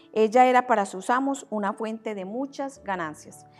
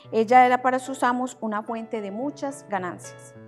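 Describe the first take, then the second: Both takes have the same delivery.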